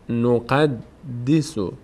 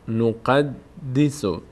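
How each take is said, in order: No difference in how they are said.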